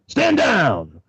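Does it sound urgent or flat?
urgent. It is said with urgency.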